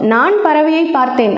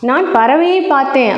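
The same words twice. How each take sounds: First: The stress falls on the first word. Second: The stress falls on the second word. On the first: It tells who saw the bird. "நான் அப்படிங்கிற சொல்லுக்கு அழுத்தம் கொடுத்தேன்" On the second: It tells what was seen. "பறவையை அப்படிங்கிற சொல்லுக்கு அழுத்தம் கொடுத்தோம்"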